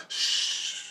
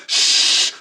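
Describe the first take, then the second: First: Soft voiceless "shh"; meek shush. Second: Sharp voiceless "shh"; firm shush. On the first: Him echoing the orb's hush, soft shush. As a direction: let a quiet hush fade out. He shushes along, imitating orb. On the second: Orb silencing his scream, firm shush. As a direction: cut off the scream with a full shush. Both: Retold or imitated.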